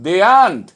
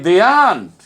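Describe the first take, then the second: Both takes have the same delivery.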